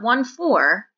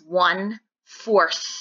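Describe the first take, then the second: First: The last word ends without a 'th' sound. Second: The last word ends with a 'th' sound. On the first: The speaker calls it wrong. "It's not 1/4" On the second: The speaker calls it right. "you add that TH sound to the end"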